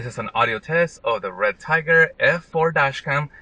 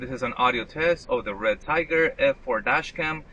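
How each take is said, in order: First: The voice sounds close, from inside the car. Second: The voice sounds distant, from outside the car. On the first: "I'm sitting on the driver's side seat" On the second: "I am standing outside the driver's side door"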